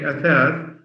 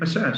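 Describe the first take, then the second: First: The word begins with a th sound. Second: The word begins with an s sound. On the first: The speaker calls it right. "instead of saying a third" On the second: The speaker calls it wrong. "they say asas"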